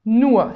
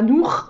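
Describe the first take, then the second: First: The final r sounds almost like an a. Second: The final r is a French throat r. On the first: The speaker calls it right. "c'est presque un A en fait à la fin" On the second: The speaker calls it wrong. "c'est pas nur avec le R, R très français"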